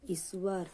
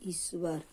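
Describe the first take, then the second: No difference in how they are said.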